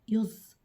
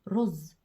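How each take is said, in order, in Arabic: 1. الكلمة تبدأ بصوت Y. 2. الكلمة تبدأ بصوت R. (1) "لما يقول يا ماما أنا عاوز يز" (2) "لازم الأم تصحح له الحرف الراء ده دلوقتي وتقول له رز"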